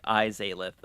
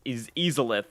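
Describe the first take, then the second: First: Izalith with a long "eye" at the start; right vowel. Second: Izalith with a short "iz" at the start; first syllable "iz" like "is"; wrong vowel. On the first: Shown as a demonstration. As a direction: Izalith said "EYE-zay-lih". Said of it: "So it's like, Izalith". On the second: Real, not acted. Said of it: "the I wrong".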